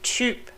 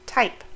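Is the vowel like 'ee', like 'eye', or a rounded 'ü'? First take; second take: rounded ü; eye. First: The vowel is a rounded ü sound. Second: The vowel is the diphthong 'eye'. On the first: The speaker calls it right. "but typ" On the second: The speaker calls it wrong. "or type"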